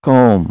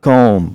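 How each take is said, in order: The two takes are said the same way.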